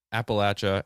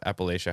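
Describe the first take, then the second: First: Appalachia said "app-uh-LATCH-uh"; short-A pronunciation. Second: Appalachia said quickly as "app-uh-LAY-shuh"; long-A pronunciation. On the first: Host giving listeners either choice, Appalachia as "app-uh-LATCH-uh". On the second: Host giving listeners either choice, Appalachia as "app-uh-LAY-shuh". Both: Shown as a demonstration. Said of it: "however you wanna pronounce it".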